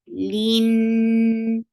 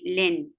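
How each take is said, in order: First: The vowel is a long ee sound. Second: The vowel is a short i sound. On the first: The speaker calls it right. "It should be e and then attach with noon" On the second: The speaker calls it wrong. "Don't say lin"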